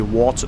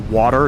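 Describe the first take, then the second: First: It is said in a New York accent. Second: It is said in a plain, neutral accent. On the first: "they got that New York accent" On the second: "they don't say water"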